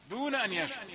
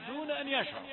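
Both takes have the same delivery.

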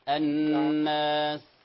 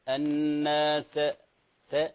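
First: The final s fades as a soft breathy hiss. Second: The final s ends with an echoing bounce. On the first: The speaker calls it right. "السين كما تعلم همس" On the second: The speaker calls it wrong. "لا نقول الناس س، لا، هذا لا قلقلة"

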